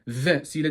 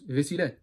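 First: The v sound is hard and held. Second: The v sound is light and short. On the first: The speaker calls it wrong. "Vesile demiyoruz" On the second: The speaker calls it right. "ve biraz hafif"

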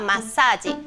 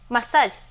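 First: The word is said with a Japanese accent. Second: The word is said with an English accent. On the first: "换成日文外来语的话massage" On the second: "massage 这个英文"

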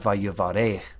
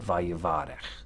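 First: The stress is on the final syllable. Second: The stress is on the next-to-last syllable. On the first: The speaker calls it wrong. "It's not vayivarech" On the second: The speaker calls it right. "because the accent has retreated back"

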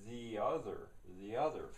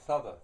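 First: Both words are said fully and separately. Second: The two words blend into one reduced word. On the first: The speaker is using the most careful standard speech. "in the most careful of standard English, you would say" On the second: The speaker slipped slightly from careful speech. "he's going to say"

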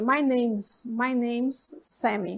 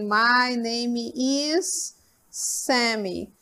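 First: Name and is are joined into one short syllable. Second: Name and is are said as two full words. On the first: "é a forma mais usual que a gente utiliza" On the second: "Poderia usar a forma normal também"

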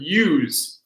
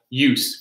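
First: The word ends with a z sound. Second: The word ends with an s sound. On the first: It is a verb: to make use of something. "when we have the z sounds, that's often the verb" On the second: It is a noun: a purpose or need. "Or we have use for the noun"

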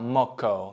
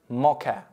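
First: The word ends with an 'o' vowel. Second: The word ends with an 'a' vowel. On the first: "Американцы иногда говорят как-то типа моко" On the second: "Произносится это слово как мока"

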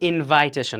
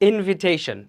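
First: The second vowel sounds like 'eye'. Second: The second vowel sounds like short 'ih'. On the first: The speaker calls it wrong. "এটা কিন্তু ইনভাইটেশন না" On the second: The speaker calls it right. "এটা কিন্তু ইনভাইটেশন না, ইনভিটেশন"

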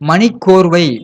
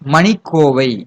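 First: An r sound comes before the final syllable. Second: No r sound comes before the final syllable. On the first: The speaker calls it wrong. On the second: The speaker calls it right.

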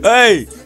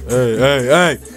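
First: It is said in a normal voice. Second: It is said in a put-on deep voice.

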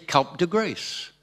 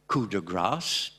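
First: It uses English sounds, with coup said like cup. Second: It keeps French sounds, with a slight English accent. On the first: The borrowed phrase is made fully English. "ils disaient cup de grace" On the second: The borrowed phrase keeps its foreign form. "avec un petit accent anglais quand même"

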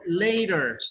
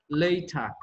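First: It is said in an American accent. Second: It is said in a British accent. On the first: "Nosotros decimos" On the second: "Ellos dicen later"

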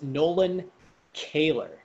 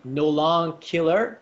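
First: The surname is pronounced in a German-sounding way. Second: The surname is pronounced in a French-sounding way. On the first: The speaker calls it right. "It's actually pronounced Nolan Kehler. Kehler is a German word" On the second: The speaker calls it wrong. "You're pronouncing my name Nolan Killer, which I completely understand. It's very French"

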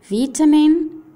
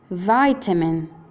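First: It is said with a British English accent. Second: It is said with an American English accent. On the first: "inglese britannico" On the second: "inglese americano"

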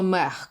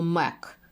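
First: The word ends in a breathy h sound. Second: The word ends in a voiceless k sound. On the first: "Не треба мех казати" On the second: "або мек"

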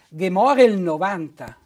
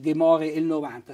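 First: The vowel before 'il' is dropped and joined. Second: The vowel before 'il' is pronounced separately. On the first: The speaker calls it right. "si pronuncia" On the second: The speaker calls it wrong. "non si pronuncia così"

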